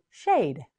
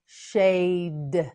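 First: Said in the usual way. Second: "Shade" with long vowel, released d; slow modelling. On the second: Shown as a demonstration. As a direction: draw out "Shade" slowly. Teacher models word slowly.

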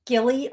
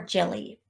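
First: Gilly with a hard G sound. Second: Jilly with a soft J sound. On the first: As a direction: begin "Gilly" like "gift". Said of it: "Gilly or Jilly". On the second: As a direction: begin "Jilly" like "jam". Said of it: "It could be Gilly". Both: Shown as a demonstration.

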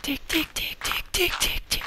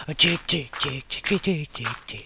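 First: High whispered ticking. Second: Said in the usual way. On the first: Pretend. Waiting, counting.

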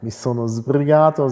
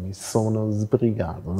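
First: Said in the usual way. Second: „sbrigato“ said slowly and softly, starting with a buzzing voiced z; slow, soft „Mi sono sbrigato“ with a voiced z; voiced s demo. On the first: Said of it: "Sie hören schon". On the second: Shown as a demonstration. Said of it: "ein stimmhaftes S am Anfang".

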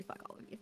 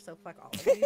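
First: Very quiet, whispery joking curse; mock serious. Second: High, loud playful cursing; mock outburst. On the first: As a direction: drop to a near-whisper, playfully serious. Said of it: "no, seriously". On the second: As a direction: curse them all loudly in jest. Joking outburst, then just kidding.

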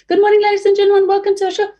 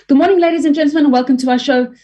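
First: Squeaky, far higher "Good morning, ladies and gentlemen"; cartoonish high welcome. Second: Much higher "Good morning, ladies and gentlemen"; bright high show welcome; high greeting. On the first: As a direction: go way up into a tiny high voice. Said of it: "and hiring". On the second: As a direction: lift the whole welcome up high. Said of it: "a different tone". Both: Shown as a demonstration.

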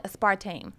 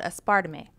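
First: "aspartame" said in three syllables, ending in TAME; standard pronunciation. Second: "aspartame" said in four syllables, as-PAR-duh-may; alternative pronunciation. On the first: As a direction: say "aspartame" as AS-par-taym, no middle vowel. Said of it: "that's how you pronounce it". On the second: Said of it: "you can pronounce what it is". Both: Shown as a demonstration.

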